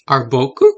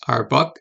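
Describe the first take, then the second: First: The word ends with a final u vowel. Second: The final u vowel is dropped.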